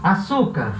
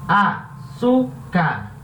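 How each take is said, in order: First: Said in the usual way. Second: "Açúcar" very slowly split as a, çú, car; "Açúcar" sounded out slowly, a pause after each syllable. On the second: Shown as a demonstration. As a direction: break "Açúcar" into three syllables with clear pauses. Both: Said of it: "A sílaba tônica é a sílaba".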